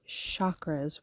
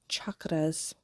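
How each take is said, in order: First: The word begins with an 'sh' sound. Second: The word begins with a 'ch' sound. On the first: The speaker calls it wrong. "people pronounce it chakras with a, like it's S H" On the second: The speaker calls it right. "that C H is really supposed to be ch"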